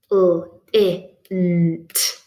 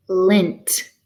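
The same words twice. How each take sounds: First: L, I, N, T as isolated phonemes; chopped into sounds. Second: Said in the usual way. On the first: Shown as a demonstration. Teacher chopping a word into units, separated phonemes. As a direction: chop it into L, I, N, T. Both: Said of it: "time to do some chopping".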